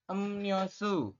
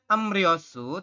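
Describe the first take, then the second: First: The second syllable starts with an n sound. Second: The second syllable starts with an r sound. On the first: The speaker calls it right. "teman-teman membacanya adalah" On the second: The speaker calls it wrong.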